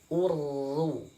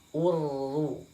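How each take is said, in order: The two takes are said the same way.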